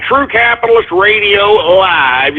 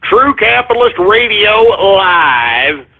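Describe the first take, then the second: First: Slow True Capitalist Radio Live again with a rise; slightly lighter promo read; slow announcer. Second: Slow, drawn out True Capitalist Radio Live; spaced-out promo read; slow announcer. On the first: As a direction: repeat the name like a promo. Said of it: "That's right". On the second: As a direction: announce it like a station ident. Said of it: "the tweet to retweet is". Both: Shown as a demonstration.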